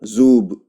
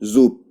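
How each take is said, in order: First: The final consonant is a voiced b. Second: The final consonant is a voiceless p. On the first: "ये है जूब" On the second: "जब प्रोनाउंस करेंगे तो क्या पढ़ेंगे?"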